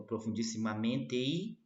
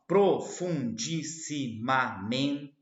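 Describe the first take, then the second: First: "profundissimamente I" com o T colado ao I; elisão. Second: "profundissimamente" bem lento e alto, sílaba por sílaba; silabação. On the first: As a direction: ligue o fim de "profundissimamente" ao "I" numa só sílaba. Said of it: "junta o T com o I". ("profundissimamente I" com as vogais finais emendadas) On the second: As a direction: separe "profundissimamente" em sete sílabas, com força. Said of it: "sete sílabas". ("profundissimamente" silabado devagar, destacando cada sílaba) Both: Shown as a demonstration.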